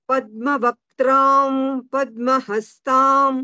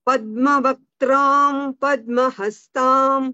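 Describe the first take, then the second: No difference in how they are said.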